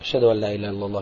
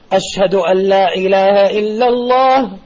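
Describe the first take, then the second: First: The phrase is said quietly. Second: The phrase is said loudly. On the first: "dann leise" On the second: "Dann sagst du laut"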